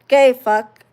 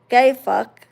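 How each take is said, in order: Both takes have the same delivery.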